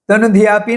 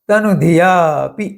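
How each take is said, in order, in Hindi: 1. शब्द बिना रुके सीधा चलता है। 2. दीर्घ स्वर, फिर अंत से पहले एक छोटा अंतराल। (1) "तनुधियापि नहीं" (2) "या के बाद थोड़ा अंतर रखकर पी बोलना है"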